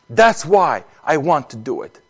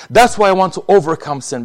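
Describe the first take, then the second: First: Said in the usual way. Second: "That's" pushed higher and louder; building emphasis. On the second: Shown as a demonstration. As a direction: repeat the line with more force and lift "That's".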